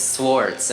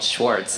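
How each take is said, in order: First: The name begins with a plain 's' sound. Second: The name begins with an 'sh' sound. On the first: This is how the name is really said. The speaker calls it right. "mine is Swartz" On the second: This is how other people say the name. The speaker calls it wrong. "I get called Schwartz"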